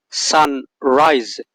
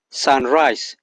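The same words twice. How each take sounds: First: "sunrise" said with a buzzing Z sound. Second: "sunrise" ending in a hissed S sound. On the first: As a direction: voice the final s of "sunrise" as Z. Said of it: "with the Z sound". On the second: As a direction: unvoice the end of "sunrise" into S. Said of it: "with the S sound". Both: Shown as a demonstration.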